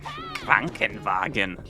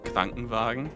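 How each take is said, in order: First: The word is barked out harshly and aggressively. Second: The word is said in a calm, ordinary way. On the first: The speaker calls it wrong. "nobody's gonna say it like that" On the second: The speaker calls it right. "like a normal person would say"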